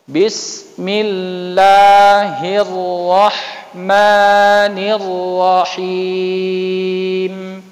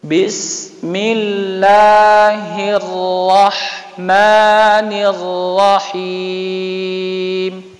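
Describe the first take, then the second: The two takes are said the same way.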